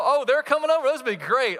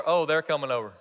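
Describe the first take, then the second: First: High, loud, delighted anticipation; acted thrill, pitch leaping up; excited. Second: Unexcited dread. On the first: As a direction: gush at news of welcome visitors. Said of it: "are they excited?". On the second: Acted. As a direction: groan at news of unwelcome visitors. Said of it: "are they excited? ... Or".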